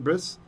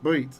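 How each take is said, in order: First: The word ends with an s sound. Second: The word ends with a t sound. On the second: "it's brit"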